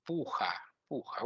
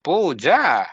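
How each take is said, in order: First: Puja with a throaty j, like pooha; Spanish-style puja. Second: Puja, proper Sanskrit j sound; correct puja. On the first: Retold or imitated. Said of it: "she pronounced like". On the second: Shown as a demonstration. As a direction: say puja as poo-jah. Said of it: "What is puja?".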